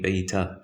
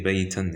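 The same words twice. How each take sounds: First: "baita" ending on an open a, no n; correct stop. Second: "baitan" with the final n sounded; wrong stop. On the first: Teacher showing how it's supposed to be, correct stop. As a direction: drop the n and finish "baita" on aa. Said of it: "It's supposed to be baita". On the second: Teacher showing a wrong stop, n kept. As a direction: end "baitan" on -an. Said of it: "it's wrong to say baitan". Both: Shown as a demonstration.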